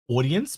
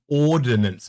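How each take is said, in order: First: The word sounds like audience, without the n-sound. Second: The word is said clearly as ordnance. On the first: The speaker calls it wrong. "I always say au- audience" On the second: The speaker calls it right. "but it's ordnance"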